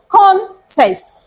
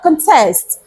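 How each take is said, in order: First: The stress is on the first syllable. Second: The stress is on the second syllable. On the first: It is a noun meaning a competition. "how do we pronounce the noun?" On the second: It is a verb meaning to oppose. "how do you pronounce the verb?"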